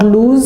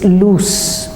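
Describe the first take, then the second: First: The word ends with a buzzing Z sound. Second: The word ends with a hissing S sound. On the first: The speaker calls it wrong. "It's not loose" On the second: The speaker calls it right. "you pronounce it with an S"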